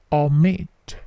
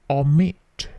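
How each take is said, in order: Both takes have the same delivery.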